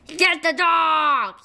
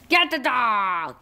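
First: Calling command. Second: Said in the usual way. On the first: Acted. Genie ordering the bird to attack, calling out. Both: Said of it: "He called".

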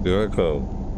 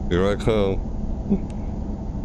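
First: Said in the usual way. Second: Very slow drawn-out line, rising at the end; dramatic read. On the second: Shown as a demonstration. Reading the game's opening line, slow and ominous. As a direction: stretch it out like an ominous threat. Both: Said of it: "No exclamation mark".

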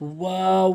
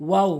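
First: ওয়াও drawn out with rounded lips; correct pronunciation. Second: ওয়াও short and plain; wrong pronunciation. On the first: Teacher modelling for learners, correct long ওয়াও. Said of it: "সঠিক উচ্চারণ হচ্ছে". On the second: Teacher showing learners the mistake, short wrong ওয়াও. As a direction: say ওয়াও quickly, lips loose. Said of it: "ভুল উচ্চারণ". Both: Shown as a demonstration.

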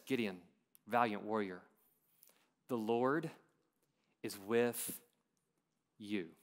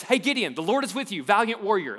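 First: Slow and soft, a pause between each phrase; slower. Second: Loud, high and quick, all run together; fast and loud. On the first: Preacher slowing the Lord's words for the congregation, slow and soft. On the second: Preacher quoting the Lord's greeting, loud and quick. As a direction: blurt it out in one breath. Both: Shown as a demonstration. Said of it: "Let's take it a little bit slower".

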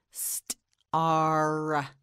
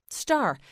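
First: "Star" split as st, pause, long ar; sounded out. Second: Said in the usual way. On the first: Shown as a demonstration. Teacher models the S word, "Star" sounded out slowly. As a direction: break "Star" after st and hold the ar. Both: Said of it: "You say it".

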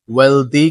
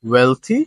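First: Wealthy with a d, WEL-dee; wrong pronunciation. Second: Wealthy with a th, WEL-thee; correct pronunciation. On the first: Teacher warns against this form, wrong pronunciation. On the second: Teacher corrects the d form, correct pronunciation. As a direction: say wealthy with an unvoiced "th", rising. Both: Shown as a demonstration. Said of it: "কিন্তু বলবো না".

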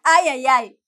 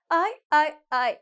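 First: Loud, quick "Ay, ay, ay" as one word; run-together words. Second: Stilted "Ay, ay, ay" with gaps between words; comically separated words. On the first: Teacher returning to the natural version, run together. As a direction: link "Ay, ay, ay" smoothly, no gaps. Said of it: "That would be so funny". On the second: Teacher imagining the funny wrong way, separated words. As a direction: chop "Ay, ay, ay" into three lone words. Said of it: "imagine you say it like that". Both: Shown as a demonstration.

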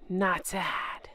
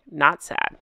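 First: Whispered "Not sad", no voice, much softer. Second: Much lower deadpan punchline, "Not sad". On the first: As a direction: breathe "Not sad" like a secret. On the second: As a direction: drop the pitch and say "Not sad" flatly, voiced. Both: Pretend. Punchline after true story.

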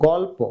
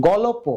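First: "গল্প" as "gol-po", no vowel after ল; joined consonants. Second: "গল্প" as "go-lo-po"; extra vowel. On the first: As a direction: stop on ল, then "po" in "গল্প". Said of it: "আমরা বলি গল্প". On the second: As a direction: sound a vowel after ল in "গল্প". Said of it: "কারণ এটার উচ্চারণ হয়েছে". (ল-এ স্বর দিয়ে "গলোপো") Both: Shown as a demonstration.

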